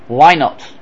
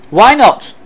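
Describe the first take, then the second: First: Said in the usual way. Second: Insistent "Why not?"; emphatic ask. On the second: Real, not acted. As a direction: press the question harder.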